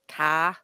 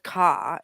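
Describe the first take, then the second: First: "car" with an open "ah" and no R; Australian-style "car", ending on "ah"; Australian vowel. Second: Said in the usual way. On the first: Shown as a demonstration. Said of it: "it's an R". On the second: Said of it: "Instead of a, an R sound".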